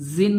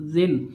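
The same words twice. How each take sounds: First: जिन said with a hissing z, the wrong way; wrong sound. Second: जिन with tongue tip at upper teeth, no hiss; correct sound. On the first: Teacher demonstrates the wrong जिन to students. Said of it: "जिन नहीं पढ़ना है". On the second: Teacher demonstrates the correct जिन to students. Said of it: "ज़बान की नोक सामने के ऊपर के दोनों दांतों के किनारों से लगना है". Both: Shown as a demonstration.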